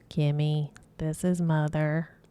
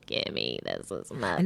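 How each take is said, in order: First: It is said in a plain voice. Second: It is said in a deep, raspy voice.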